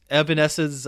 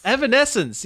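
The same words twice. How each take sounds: First: Stumbling over a band name; tongue-tied attempt at the band name; fumbled name. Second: The band name said clearly, pitched high; name finally right. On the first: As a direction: garble the end of the band name as if unsure of it. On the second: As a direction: land the band name correctly, with high-pitched relief. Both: Real, not acted. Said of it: "I can't say the name".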